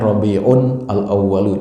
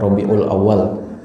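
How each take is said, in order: First: The article and final vowel are fully pronounced. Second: The article and final vowel are dropped. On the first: The speaker calls it right. "Kalau bahasa Arabnya" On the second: The speaker calls it wrong. "orang Indonesia pengen gampang saja"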